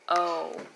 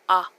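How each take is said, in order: First: The vowel is a long oh sound. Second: The vowel is a short open ah sound. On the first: "Long O" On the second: "Short O"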